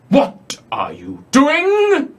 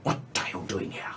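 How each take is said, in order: First: A slow, breathy whisper from the dark; eerie whisper. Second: Quick, much softer whisper; fast hissed whisper. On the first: GM voicing a hidden voice to players, slow whisper. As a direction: whisper it slowly out of the darkness. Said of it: "you hear this voice call out in the darkness". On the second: Eye monster questions the intruders, fast soft whisper. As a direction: whisper it fast and low, menacing. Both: Acted.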